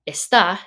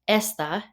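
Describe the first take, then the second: First: The stress is on the last syllable. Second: The stress is on the first syllable. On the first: It means is. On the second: It means this.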